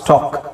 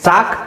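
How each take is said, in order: First: The vowel sounds like a rounded 'aw'. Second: The vowel sounds like a long 'ah'. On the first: The speaker calls it right. "ಬೇಕಾದ್ರೆ ಈ ತರ ಬರ್ಕೊಳ್ಳಿ, ಓ ಸಿ" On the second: The speaker calls it wrong. "ಸ್ಟಾಕ್ ಅಲ್ಲ"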